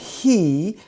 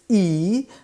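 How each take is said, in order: First: The word begins with an H sound. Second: The word begins without an H sound. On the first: "instead of saying he" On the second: "it's E"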